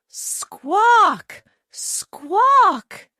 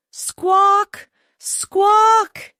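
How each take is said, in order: First: High, loud hen squawks, twice; frightened squawking. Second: Very high, loud panicked squawks; terrified squawking. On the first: Chicken Little, frightened by petals, squawks high and loud. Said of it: "cried Chicken Little, frightened". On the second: Chicken Little squawks louder in terror while fleeing. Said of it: "her call rising louder with her terror". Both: A narrator's reading.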